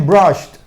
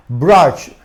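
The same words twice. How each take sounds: First: "brushed" as "brusht", final t released. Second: "Brush" ending on sh, with no t; base form ending. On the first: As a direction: close "brushed" on a crisp voiceless t. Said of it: "terminado en T". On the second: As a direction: model "Brush" closing on voiceless sh. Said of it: "cuando le agrega la ed". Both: Shown as a demonstration.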